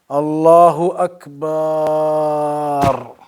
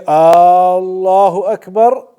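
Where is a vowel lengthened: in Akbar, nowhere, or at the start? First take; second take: in Akbar; start. First: The first vowel of Akbar is lengthened. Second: The first vowel of Allahu is lengthened. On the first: Akbar takes on a different meaning. "they've extended the alif in Akbar" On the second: It asks whether Allah is the greatest. "By extending the alif at the beginning"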